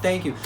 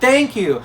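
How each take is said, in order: First: It is said at a raised, louder volume. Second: It is shouted at full, loud volume. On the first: "I'll say it louder" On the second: "Sometimes I'll shout"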